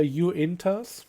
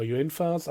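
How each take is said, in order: First: "Uintas" said with a hard T; unsure pronunciation. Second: "Uinfas" said with an F sound; alternative pronunciation. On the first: Reviewer naming the engines for viewers, unsure pronunciation. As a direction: try "Uintas" slowly, with a T sound. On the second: Reviewer second-guessing an engine's name, alternative pronunciation. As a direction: offer "Uinfas", F in place of the T. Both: Real, not acted. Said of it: "don't really know how that's properly pronounced".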